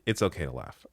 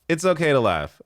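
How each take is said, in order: First: Said in the usual way. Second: Higher and louder through laughter; can't stop laughing while saying it; laughing burst, higher and louder. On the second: Real, not acted. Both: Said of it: "I'm saying that 'cause I'm laughing".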